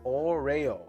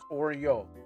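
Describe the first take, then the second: First: It is said with a fancier, Japanese-sounding pronunciation. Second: It is said like the familiar English cookie name. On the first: "It sounds fancier. It sounds more Japanese" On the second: "Like it's pronounced Oreo"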